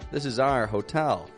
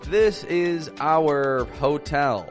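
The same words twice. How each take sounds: First: 'Our' is clipped short, like the letter R. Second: 'Our' is drawn out, like 'hour'. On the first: The speaker calls it right. "we actually say it more like our" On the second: The speaker calls it wrong. "A lot of people will say"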